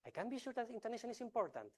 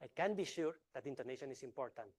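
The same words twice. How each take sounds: First: Whole sentence pitched far higher, sing-song; same words, high and emphatic; different intonation. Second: Said in the usual way. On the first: Shown as a demonstration. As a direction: lift the whole line up high to send another message. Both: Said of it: "same sentence in a book, but I'm sending two different messages".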